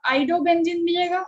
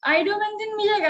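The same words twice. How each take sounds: First: "आइडो benzene मिलेगा?" asked with a rising question tune on "मिलेगा"; student's question. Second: "आइडो benzene मिलेगा," answered higher, falling firmly on "मिलेगा"; confident answer. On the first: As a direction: voice the student's doubt, lifting "मिलेगा" at the end. ("मिलेगा" पर ऊपर उठता सवाल वाला लहजा) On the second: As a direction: settle the doubt, bring "मिलेगा" down with certainty. ("मिलेगा" पर नीचे गिरता पक्का जवाब) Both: Shown as a demonstration. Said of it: "अब आपके मन में अगर आ रहा होगा".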